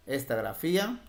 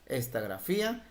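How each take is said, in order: Both takes have the same delivery.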